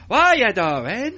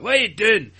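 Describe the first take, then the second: First: Loud, high, drawn-out mock accent; Brian. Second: Loud, high mock Scottish accent; Jake. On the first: Podcaster mimicking another performer, slow high mock accent. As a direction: stretch it out in a muddled put-on accent. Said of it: "Brian was like this". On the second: Podcaster mimicking a castmate's start, mock Scottish. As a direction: imitate a bad Scottish accent, pitched up. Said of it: "he started off Scottish".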